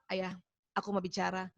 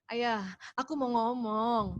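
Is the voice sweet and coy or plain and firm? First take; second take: plain firm; sweet coy. First: It is said in a plain, firm voice. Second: It is said in a sweet, coy voice.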